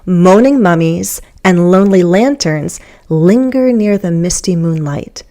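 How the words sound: There is a pause after lanterns, splitting the sentence. The speaker calls it right. "I think I'm going to say it in two thought groups"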